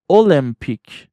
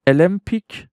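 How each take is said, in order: First: المپیک said "oh-LIM-pik", with a full O; full O pronunciation. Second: المپیک said "uh-LIM-pik", with a reduced first vowel; first English pronunciation. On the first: Teacher shows learners the other option, full O pronunciation. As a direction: say المپیک English-style, sounding the first O. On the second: Teacher shows learners one English option, weak-vowel pronunciation. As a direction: say المپیک English-style, opening on a weak schwa. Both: Shown as a demonstration.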